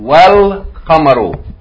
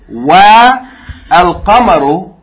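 First: The wa joins straight onto the l. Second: A separate vowel is sounded before the l. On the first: The speaker calls it right. "we're going to go straight from wa to the lam" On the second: The speaker calls it wrong. "instead of saying wa al qamaru"

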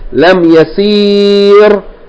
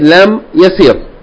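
First: The vowel before the final r is long. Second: The vowel before the final r is short. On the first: The speaker calls it wrong. "Instead of saying Lam Yasir" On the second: The speaker calls it right. "we say Lam Yasir"

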